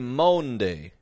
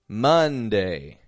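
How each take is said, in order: First: The first vowel is an 'oh' sound. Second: The first vowel is a short 'uh' sound. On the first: The speaker calls it wrong. "trying to make their sound match what their eyes are seeing" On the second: The speaker calls it right. "They're all getting an sound, just a U"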